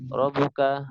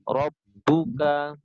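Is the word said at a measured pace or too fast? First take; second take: too fast; measured. First: The word is rushed and said too fast. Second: The word is said at an even, measured pace. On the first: The speaker calls it wrong. "Biasanya terlalu cepat" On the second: The speaker calls it right. "Harusnya terbaca misalnya di sini rabbuka"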